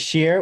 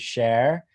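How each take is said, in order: First: The name is said with a vowel like 'beer'. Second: The name is said with a vowel like 'bear'. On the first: This is a less common pronunciation of the name. "Some people say sheer" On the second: This is the usual pronunciation of the name. "how most people pronounce it"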